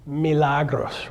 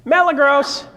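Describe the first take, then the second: First: Milagros said slowly, each syllable clear; Milagros, slow and precise; careful pronunciation. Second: Milagros said as mel-uh-gros, higher and louder; common mispronunciation. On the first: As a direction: spell out Milagros by sound. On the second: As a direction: anglicize Milagros loudly. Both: Shown as a demonstration. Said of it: "how do most people pronounce it".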